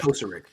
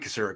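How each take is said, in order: First: The stress is on the first syllable. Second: The stress is on a later syllable. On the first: "Emphasis um, on the first syllable" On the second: "It might be Kocurek, actually"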